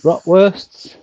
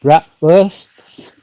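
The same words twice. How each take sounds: First: "bratwursts" with an open ah, as "braht"; bratwursts, second pronunciation. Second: "bratwursts" with a short flat a, as in "rat"; bratwursts, first pronunciation. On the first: Correcting the German dish, "bratwursts" with an ah vowel. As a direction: say "bratwursts" with a long ah in the first syllable. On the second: Announcing German dinner, "bratwursts" with an English short a. Tries German dish name two ways. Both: Shown as a demonstration.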